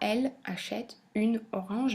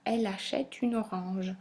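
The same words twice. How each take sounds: First: Each word is said separately, without linking. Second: Final consonants link onto the following words. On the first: The speaker calls it wrong. "On dira pas" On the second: The speaker calls it right. "le elle de elle se retrouve rattaché au mot achète"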